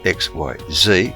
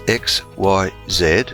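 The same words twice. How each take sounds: First: The last letter is said as zee. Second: The last letter is said as zed.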